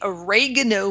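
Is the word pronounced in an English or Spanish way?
English. It is pronounced the English way.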